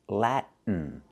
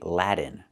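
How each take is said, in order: First: The T is stopped and goes straight into N. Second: The T sounds like a quick D. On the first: The speaker calls it right. "You can do a stop T" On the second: The speaker calls it wrong. "We cannot say Latin"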